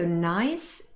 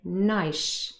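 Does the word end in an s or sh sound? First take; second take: s; sh. First: The word ends in an s sound. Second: The word ends in an sh sound. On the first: "the adjective nice ends in s" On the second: "this s changes because the following word, shoes, starts with the fricative sh"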